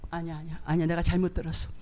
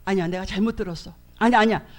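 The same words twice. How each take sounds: First: Hushed denial. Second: Said in the usual way. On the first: Retold or imitated. Denying what God said.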